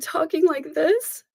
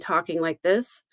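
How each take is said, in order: First: It is said in a choked, emotional-sounding voice. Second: It is said in a plain, steady voice.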